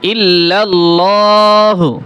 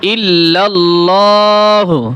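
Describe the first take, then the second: The two takes are said the same way.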